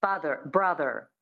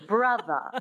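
First: "Father, brother" each ending on a sounded R; American rhotic R. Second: "Brother" ending in a schwa, bruh-thuh; dropped final R. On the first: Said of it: "So that's the American". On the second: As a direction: transatlantic "Brother" without the R. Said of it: "drop the R and you make it a schwa". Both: Shown as a demonstration.

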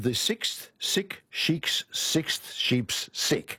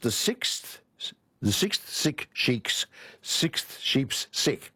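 First: Very slow, careful articulation; slow tongue twister. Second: Very slow, careful articulation; slow again. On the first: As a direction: say each word slowly and clearly. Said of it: "I can't do it fast". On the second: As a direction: spell out each sound slowly. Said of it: "I'll say it again". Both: Shown as a demonstration.

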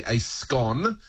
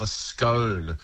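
First: SCONE rhyming with gone; short-O scone. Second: SCONE rhyming with bone, slow; long-O scone. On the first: Word expert on what they call the food, short-O SCONE. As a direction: say A SCONE as "ay skon". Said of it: "they absolutely call the edible". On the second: Word expert on Irish and Midlands usage, long-O SCONE. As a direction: stretch SCONE as "skohn". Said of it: "they love a scone". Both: Shown as a demonstration.

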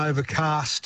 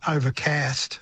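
First: "overcast" with a long "ah" in cast; broad long-A vowel. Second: "overcast" with the short American "a" of cat; flat short-A vowel. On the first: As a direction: say "overcast" as "over-cahst". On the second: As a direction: say "overcast" with cast rhyming with "gassed". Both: Shown as a demonstration. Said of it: "it just doesn't sound right".

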